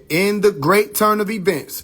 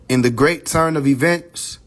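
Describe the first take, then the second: First: "in the great turn of events" slow and raised in pitch; bold, emphasized reading. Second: Said in the usual way. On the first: Shown as a demonstration. Showing viewers the bold line, slow and raised. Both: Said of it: "in bold".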